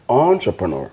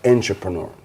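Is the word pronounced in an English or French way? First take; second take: French; English. First: The word is pronounced the French way. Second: The word is pronounced the English way. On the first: The speaker calls it right. "is entrepreneur, ... Because it's French" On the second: The speaker calls it wrong. "not entrepreneur"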